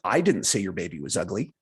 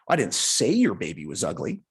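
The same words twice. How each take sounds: First: The stress falls on the word I. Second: The stress falls on the word say. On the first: Someone else said it. "maybe somebody else said it" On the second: It was implied in some other way. "Maybe you implied it in some other way"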